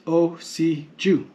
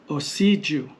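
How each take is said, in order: First: Slow "osi ju", each syllable apart. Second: "Osiju" with the middle "si" stressed. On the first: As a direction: spell out "osi ju" as o, si, ju. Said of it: "So in the syllabary". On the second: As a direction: lean on "si" in "Osiju", then fall. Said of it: "stress on the syllable goes". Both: Shown as a demonstration.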